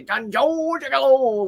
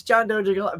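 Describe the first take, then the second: First: "John Joe Gigolo" with a J sound on "Joe", slower and higher; "John Joe Gigolo" sung out as a J-heavy alliteration, slower; playful mispronunciation. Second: Said in the usual way. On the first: Shown as a demonstration. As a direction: stretch out "John Joe Gigolo", making both names start with J. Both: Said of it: "but I always wanna say".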